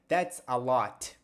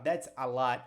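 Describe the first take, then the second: First: The final T is released with clear force. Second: The final T is soft and barely heard. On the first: "ele pronunciou o T com mais força" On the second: "você quase não escuta ele falar o T"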